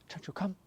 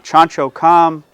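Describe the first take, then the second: First: It is said high-pitched with movement. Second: It is said flat and dull.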